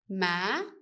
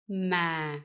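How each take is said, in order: First: The pitch rises across the word. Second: The pitch falls across the word. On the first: "With the up tone, it goes up" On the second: "with the down tone, it goes down"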